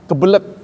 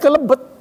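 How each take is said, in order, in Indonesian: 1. Bunyi b muncul sebelum bunyi l. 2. Bunyi l muncul sebelum bunyi b. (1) "Kata sebagian kebelet" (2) "Tapi di daerah lain kelebet"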